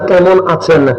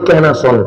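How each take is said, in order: First: The first word is said with its 'm' sound. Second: The first word is said without its 'm' sound. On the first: This is the standard way people elsewhere say it. "যেমন আপনারা বলবেন কেমন আছেন" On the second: This is how people from Chittagong say it. "আমরা মটা ফেলে দিছি, আমরা বলি কেন আসন"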